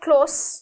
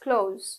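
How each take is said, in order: First: The word ends with an s sound. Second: The word ends with a z sound. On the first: The speaker calls it wrong. "It's not close" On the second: The speaker calls it right. "it's close. Z"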